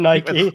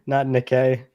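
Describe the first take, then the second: First: The first syllable sounds like 'nigh', as in Nike. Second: The first syllable sounds like 'nick', with a K. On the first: The speaker calls it wrong. "You said Nike" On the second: The speaker calls it right. "it's supposed to be another K"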